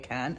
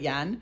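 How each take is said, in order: First: The name starts with a K sound. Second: The name starts with a J sound. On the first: The speaker calls it wrong. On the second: The speaker calls it right.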